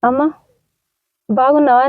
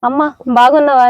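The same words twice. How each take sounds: First: It is said in a sad, sorrowful tone. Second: It is said in a happy, joyful tone. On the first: "అదే బాధపడుతూ, బాధపడుతూ చెప్పండి" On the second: "first సంతోషంగా చెప్తారా?"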